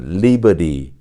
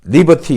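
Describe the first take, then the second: First: The r is sounded and the t is flapped. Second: The r is silent and the t is crisp. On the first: "이렇게 하는 것은 미국식 발음이에요" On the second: "영국식 발음은 liberty, liberty 이렇게 발음합니다"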